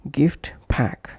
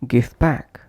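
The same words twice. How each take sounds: First: GIFT PACK with the t of GIFT released; full final T. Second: GIFT PACK as "gif pack"; dropped T. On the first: Teacher repeating separate words, full final T. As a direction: say "gift" fully, then "pack". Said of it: "pronounced as". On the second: Teacher repeating connected pronunciation, dropped T. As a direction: push "gif" straight into "pack". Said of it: "omitting T or T completely". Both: Shown as a demonstration.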